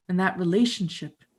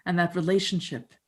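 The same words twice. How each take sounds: The two takes are said the same way.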